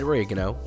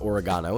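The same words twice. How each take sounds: First: It is said in an American accent. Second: It is said in an English accent.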